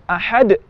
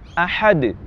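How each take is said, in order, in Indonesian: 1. Pantulan akhir dipotong oleh hentian glotis. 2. Pantulan akhir berakhir terbuka tanpa hentian glotis. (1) "menutup pita suara kita setelah bunyi qalqalah" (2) "Seharusnya ahad"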